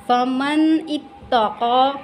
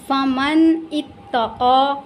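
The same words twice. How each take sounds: Both takes have the same delivery.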